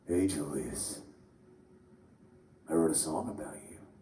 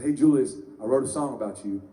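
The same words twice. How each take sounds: First: It is said in a put-on creepy voice. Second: It is said in an ordinary, plain voice. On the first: A creepy message to a stranger. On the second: A harmless, friendly message.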